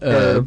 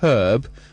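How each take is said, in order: First: It is said in the US way. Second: It is said in the British way. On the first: The speaker calls it wrong. "the U S way" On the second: The speaker calls it right. "I was always taught in school to say"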